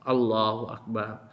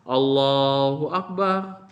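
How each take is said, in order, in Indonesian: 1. Diucapkan pelan, dengan suara rendah. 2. Diucapkan keras, dengan suara penuh. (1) "seperti itu dibaca pelan" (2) "Dibaca jahar keras"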